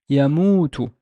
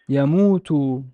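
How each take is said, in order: First: The final vowel is short. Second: The final vowel is held long.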